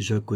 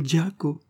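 First: "Jaco" the French way, no d before the J; French pronunciation. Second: "Giaco" with a hard dj onset; "Giaco" the Italian way, opening on dj; Italian pronunciation. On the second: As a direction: say "Giaco" starting with d plus j, higher. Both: Shown as a demonstration. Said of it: "Jaco n'est pas Jaco, mais Giaco".

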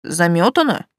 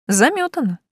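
First: "Замётано" as a puzzled echo question. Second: "Замётано" pitched high, then falling, as a firm yes; agreeing. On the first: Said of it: "заинтересовался Ранг". («Замётано» вопросительно, переспрашивая) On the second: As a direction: say "Замётано" as a settled deal, higher voice. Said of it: "кивнула я". («Замётано» утвердительно, высоко, с падением тона) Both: A narrator's reading.

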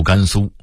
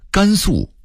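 First: 甘肃 as gānsū; level first tone on 肃 in 甘肃; Beijing reading. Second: Said in the usual way. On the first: Shown as a demonstration. Narrator contrasting word lists, Beijing reading. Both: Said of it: "北京话读甘肃".

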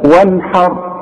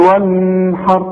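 First: وانحر with a short ن, no hum; clear izhar noon. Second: وانحر with the ن held and hummed; wrong nasalised noon. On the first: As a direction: release the ن straight into the ح of وانحر. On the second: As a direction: drag a nasal hum before the ح in وانحر. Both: Shown as a demonstration. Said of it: "ما تقولش وانحر".

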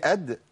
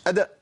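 First: أد ending on a bounced d, no vowel after; correct qalqala. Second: أد said as "ada", a vowel added after d; overdone qalqala. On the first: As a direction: release the d of أد with a bare bounce. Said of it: "مش أد، لا". (أد بدال ساكنة مقلقلة) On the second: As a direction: open the final d of أد towards "a". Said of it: "أبالغ في القلقلة". (أد بإمالة الدال للفتح) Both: Shown as a demonstration.

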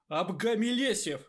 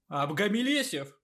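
First: Loud incantation. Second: More confident incantation. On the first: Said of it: "в разы громче обычного". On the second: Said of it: "повторил он ещё увереннее". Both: A narrator's reading.

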